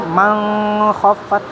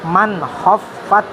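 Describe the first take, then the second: First: The n blurs into a nasal ng. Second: The n is pronounced clearly and distinctly. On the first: The speaker calls it wrong. "salah itu" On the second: The speaker calls it right. "N-nya harus jelas"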